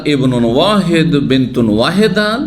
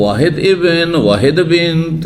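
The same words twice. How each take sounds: First: ইবনুন ওয়াহেদ, বিন্তুন ওয়াহেদা with the -un endings sounded; correct Arabic form. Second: ওয়াহেদ ইবন, ওয়াহেদ বিন্ত with no case endings; number first, "ইবন" and "বিন্ত" left bare and drawn out; incorrect colloquial form. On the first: Teacher showing students the permissible Arabic, correct form with endings sounded in "ইবনুন ওয়াহেদ". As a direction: noun first, "ইবনুন" and "বিন্তুন" ending in a clear -un. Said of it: "তাহলে জায়েজ আছে". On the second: Teacher showing students the broken Arabic, endings dropped from "ওয়াহেদ ইবন". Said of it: "এটি গলত".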